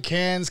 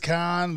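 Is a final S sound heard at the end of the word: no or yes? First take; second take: yes; no. First: The word ends with an audible S sound. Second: The word ends without any S sound.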